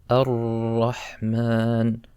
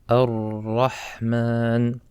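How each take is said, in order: The two takes are said the same way.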